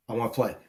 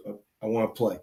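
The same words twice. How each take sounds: First: Low, soft, sloppy plea; mock drunk whine, quieter and lower; imitating a drunk roommate. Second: Low, soft, slurred plea; mock drunk whine, quieter and lower; imitating a drunk roommate. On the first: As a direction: mumble it like a drunk kid begging to join. Drunk roommate begging to play. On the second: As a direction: mumble it like a drunk begging to join. Drunk roommate begging again.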